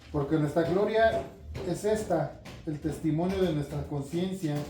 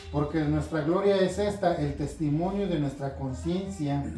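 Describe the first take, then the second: No difference in how they are said.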